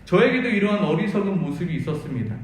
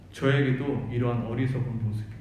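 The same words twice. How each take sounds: First: Said in the usual way. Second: 저에게도 repeated lower, as if to himself; lower echo. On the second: Shown as a demonstration. Preacher repeating his confession, lower and inward. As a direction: drop the pitch and let 저에게도 sink inward.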